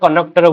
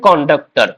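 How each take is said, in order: First: No 'd' sound follows the 'n'. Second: A 'd' sound follows the 'n'. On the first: The speaker calls it wrong. "ପିଲେ କନକ୍ଟର କନକ୍ଟର ବୋଲି କହୁଛନ୍ତି" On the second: The speaker calls it right. "Actually ଠିକ ଟା କଣ୍ଡକ୍ଟର"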